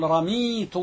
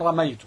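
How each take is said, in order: First: رميت said "ramiitu", long ee after the m; رميت with kasra, ee instead of ay; kasra on the mim. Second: رميت said "ramaytu", ay after the m; رميت with fatha on the mim, ay instead of ee; alternative vowelling. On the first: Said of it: "بكسر الميم". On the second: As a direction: say رميت with the diphthong ay, ra-MAY-tu. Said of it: "كما يجوز أن تقول". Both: Shown as a demonstration.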